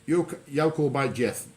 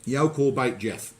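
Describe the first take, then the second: First: "You call by Jeff" in broad Black Country, can't as "call", beat as "by", death as "Jeff"; Black Country phrase at a normal pace; Black Country dialect. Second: "You call bait Jeff" in Black Country, slowed down and a bit louder, each word spelled out by ear; slower, louder Black Country repeat. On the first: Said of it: "So that's you can't beat death". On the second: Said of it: "I'm sorry?". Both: Shown as a demonstration.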